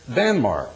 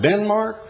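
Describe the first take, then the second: First: The first syllable sounds like 'dan'. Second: The first syllable sounds like 'den'. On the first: "they spell it and pronounce it Danmark" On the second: "We pronounce it Denmark"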